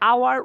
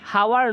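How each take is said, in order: First: The word starts with a vowel, no h. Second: The word starts with an h sound. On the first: The speaker calls it right. "আওয়ার উচ্চারণ হয়েছে" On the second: The speaker calls it wrong. "হাওয়ার নয়"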